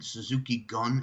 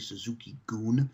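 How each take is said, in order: First: The last word has a short 'uh' vowel. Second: The last word has a long 'oo' vowel. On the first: The speaker calls it wrong. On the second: The speaker calls it right.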